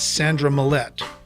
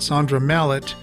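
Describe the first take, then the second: First: The surname is said like 'Millette'. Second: The surname is said like 'Mallett'. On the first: The speaker calls it right. "it's [name]" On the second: The speaker calls it wrong. "I've been mispronouncing the lead singer's name"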